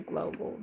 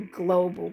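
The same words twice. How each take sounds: First: Whisper. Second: Said in the usual way. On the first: Shown as a demonstration. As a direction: whisper "global" with no voice. Repeats the word, then whispers it.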